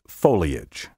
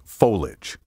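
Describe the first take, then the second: First: The word is said with three syllables. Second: The word is said with two syllables. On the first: The speaker calls it right. "Take care to pronounce these words in three syllables" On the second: The speaker calls it wrong. "Try not to say verbiage and foliage"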